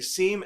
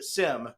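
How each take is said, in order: First: The vowel is a long ee sound. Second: The vowel is a short i sound. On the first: "S E E M in your mind" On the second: "S I M"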